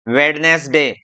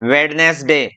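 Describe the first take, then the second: First: It is said in three syllables with d. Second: It is said in three syllables with d.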